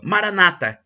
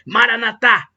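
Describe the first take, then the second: First: The stress is on the next-to-last syllable. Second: The stress is on the final syllable. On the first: This is how Protestants say it. "acentuando a penúltima sílaba" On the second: This is how Catholics say it. "dando a tônica na última sílaba"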